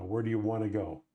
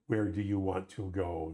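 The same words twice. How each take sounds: First: "wanna" blended, "where do you wanna go" flowing easily; relaxed everyday "wanna" instead of "want to"; casual reduced English. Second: "want to" said as two full words in "Where do you want to go?"; overly proper English. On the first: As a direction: let "where do you wanna go" run together loosely. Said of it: "there's a flow to these things". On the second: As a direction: pronounce "Where do you want to go?" carefully word by word. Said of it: "Canadians don't speak like that". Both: Shown as a demonstration.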